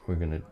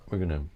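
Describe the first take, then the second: No difference in how they are said.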